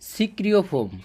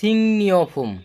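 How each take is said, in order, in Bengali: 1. মাঝের ধ্বনিগুলো হলো সাধারণ 'k' তারপর 'r'। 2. মাঝের ধ্বনিগুলো হলো নাসিক 'ng' তারপর 'n'।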